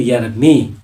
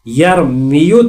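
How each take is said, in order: First: The word ends with a long 'ee' sound. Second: The word ends with a 'yu' sound. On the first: This is the form after the final vowel drops. "फिर यरमी हो जाएगा" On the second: This is the underlying form before the change. "यरमीयू था"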